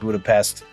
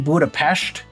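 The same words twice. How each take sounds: First: It is said with an American English pronunciation. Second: It is said with a Hungarian pronunciation. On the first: "I pronounce it Budapest. It's an accent thing" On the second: "that's how they pronounce it in Hungary"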